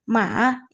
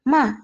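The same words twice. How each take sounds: First: It is said with the third tone. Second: It is said with the fourth tone. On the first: It means horse. "Nada yang ketiga" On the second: It means to scold. "nada keempat"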